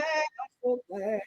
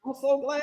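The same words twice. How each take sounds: First: Trailing off softly, much quieter; a hushed, slow echo of the first line; softer, slower repeat. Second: Said in the usual way. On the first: Real, not acted. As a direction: say it again under your breath, slowly.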